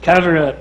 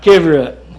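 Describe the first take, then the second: First: The first vowel is an 'uh' sound. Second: The first vowel is an 'ih' sound. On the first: The speaker calls it right. "It's cover up" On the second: The speaker calls it wrong. "not kiver up"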